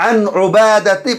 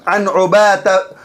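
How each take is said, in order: Both takes have the same delivery.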